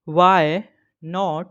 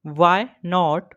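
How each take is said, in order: First: English teacher splitting why not into two words; why and not split by a pause. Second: Said in the usual way. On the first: Shown as a demonstration. अंग्रेज़ी teacher "why" और "not" अलग अलग बोलती हैं. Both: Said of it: "Daily use English short sentence".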